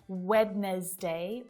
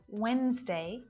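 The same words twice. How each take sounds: First: The D sound is clearly pronounced. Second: The D sound is left out entirely. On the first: The speaker calls it wrong. "We don't say Wednesday" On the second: The speaker calls it right. "It's just Wednesday"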